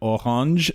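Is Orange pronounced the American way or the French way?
French. Orange is pronounced with a French accent.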